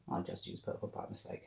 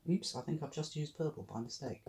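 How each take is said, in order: First: Soft guilty whisper under breath. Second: Said in the usual way. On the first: Real, not acted. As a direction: whisper it to yourself, caught out. Repeats mistake remark, then whispers.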